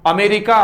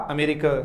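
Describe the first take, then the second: First: "अमेरिका" said louder with a full aa at the start and end; wrong pronunciation, full aa. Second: "अमेरिका" said softly with a short schwa start; correct pronunciation, softer. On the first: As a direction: show the mistake: "अमेरिका" with a strong aa. ("अमेरिका" का गलत, ज़ोरदार आ वाला उच्चारण) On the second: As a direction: give "अमेरिका" quietly, with the vowels kept short. ("अमेरिका" का सही, नरम उच्चारण) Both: Shown as a demonstration. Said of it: "ऐसे होता है ए, न कि आ".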